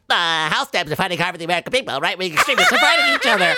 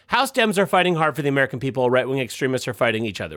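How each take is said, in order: First: It is said in a put-on character voice. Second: It is read in the speaker's normal voice.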